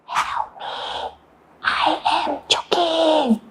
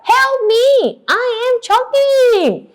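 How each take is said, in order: First: Hushed, feeble plea; very quiet call for help; barely audible. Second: Acted desperate plea; audible cry. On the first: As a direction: say it too softly to be heard. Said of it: "I can't hear you". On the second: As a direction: call it out so everyone hears. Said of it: "I can't hear you. One more time". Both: Shown as a demonstration.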